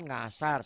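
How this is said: The word begins with an ng sound. The speaker calls it wrong. "Asalnya kan ngasar"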